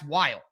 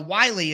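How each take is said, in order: First: The name is said as one syllable. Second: The name is said as two syllables. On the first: It is read the way the spelling suggests. The speaker calls it wrong. "To me, that's Whyle" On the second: It is the way the name is actually said. The speaker calls it right. "Wiley is quite confusing that that would be the pronunciation"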